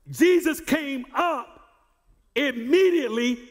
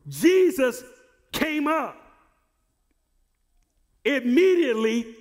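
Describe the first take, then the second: First: "Jesus came up immediately" slowed and leaned on, stress on Jesus; slow emphatic repeat. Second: Said in the usual way. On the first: Shown as a demonstration. Preacher urging the congregation to answer, slow emphatic. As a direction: drag out "Jesus" and hit "immediately". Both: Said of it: "come on".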